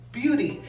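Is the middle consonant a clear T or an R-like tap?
R-like tap. The middle consonant is a quick R-like tap. This is how American English says it. "aquí en Estados Unidos, se pronuncia beauty"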